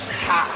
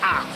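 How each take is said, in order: First: It starts with an audible h sound. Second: It starts with a vowel and no h sound. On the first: The speaker calls it wrong. "not ha" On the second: The speaker calls it right. "in French, we don't pronounce the H. It's ah"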